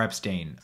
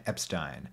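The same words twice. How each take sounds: First: Epstein ending like "steen"; alternative Epstein pronunciation. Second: Epstein ending like "stine"; Epstein pronunciation. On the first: Offering the other reading, Epstein said "EP-steen". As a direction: say Epstein to rhyme with "seen". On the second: Introducing the famous manager, Epstein said "EP-stine". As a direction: say Epstein to rhyme with "line". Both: Shown as a demonstration. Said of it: "I've heard both pronunciations".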